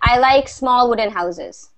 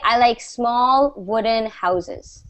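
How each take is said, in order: First: The words run on with no pause after small. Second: There is a short pause after small. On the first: "if you don't put a comma, it's going to sound like" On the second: "there's going to be a pause after small"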